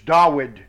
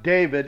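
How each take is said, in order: First: The middle consonant is a W sound. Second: The middle consonant is a V sound. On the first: The speaker calls it right. "Dawid with a W" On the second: The speaker calls it wrong. "It's not David"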